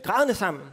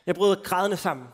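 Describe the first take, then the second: First: Chuckling through the words; laughing repeat. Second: Said in the usual way. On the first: Real, not acted. Telling the youth group he cried, with a laugh. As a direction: laugh at your own confession.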